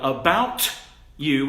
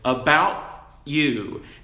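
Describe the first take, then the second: First: The t is released with a clear burst. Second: The t is stopped with no release.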